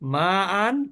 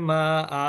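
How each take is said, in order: First: The word ends with an n sound. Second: The word ends with a long vowel.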